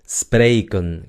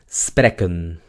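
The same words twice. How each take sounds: First: The first vowel is long and drawn out. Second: The first vowel is short and clipped. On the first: It is the real verb. The speaker calls it right. "que se mantenga la E larga" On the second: It is not a real word. The speaker calls it wrong. "tendríamos el verbo spreken, que en realidad no significa nada"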